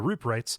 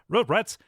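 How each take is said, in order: First: It is said in an ordinary speaking voice. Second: It is said in a put-on news reporter voice.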